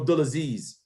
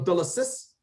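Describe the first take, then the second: First: The name ends with a buzzing 'ziz' sound. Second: The name ends with a hissing 'sis' sound. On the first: "or Abdulaziz?" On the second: "do you say Abdullah uh, Abdullah Sis?"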